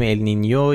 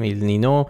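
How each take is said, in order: First: «النینیو» with a ny glide before the o; correct pronunciation. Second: «النینو» with a simple n, no y; common Persian pronunciation. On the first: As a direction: end «النینیو» on -nyo. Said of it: "تلفظ درستش النینیوه". («النینیو» با تلفظ درست، آخرش «نیو») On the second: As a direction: end «النینو» on a plain -no. («النینو» بدون صدای ی، آخرش «نو») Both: Shown as a demonstration.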